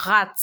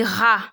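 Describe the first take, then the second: First: "rat" with the T pronounced at the end; sounded final T. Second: "ra" said as French rah, no T; silent final T. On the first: Teacher shows what it is not, final T sounded. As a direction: say "rat" closing on a clear T. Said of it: "it is not". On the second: Teacher shows learners the right form, T left silent. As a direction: say "ra" ending on the open vowel. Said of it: "You don't pronounce the T". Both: Shown as a demonstration.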